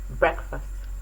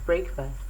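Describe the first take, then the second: First: The first syllable has a short vowel, brek. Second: The first syllable sounds like the word brake. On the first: The speaker calls it right. "but is correctly pronounced as breakfast" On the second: The speaker calls it wrong. "is popularly pronounced as breakfast"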